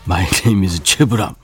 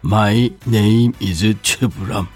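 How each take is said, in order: First: It is said at normal speed. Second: It is said slowly.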